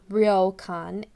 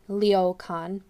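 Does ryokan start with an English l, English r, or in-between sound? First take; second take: English r; English l. First: It starts with an English r sound. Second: It starts with an English l sound. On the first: "it's not ryokan" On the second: "or ryokan"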